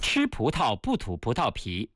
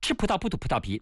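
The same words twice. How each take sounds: First: It is said at a normal speed. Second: It is said faster.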